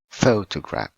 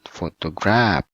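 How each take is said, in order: First: The stress is on the first syllable. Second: The stress is not on the first syllable. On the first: The speaker calls it right. "but photograph. ... the first one on the first syllable" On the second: The speaker calls it wrong. "not photograph"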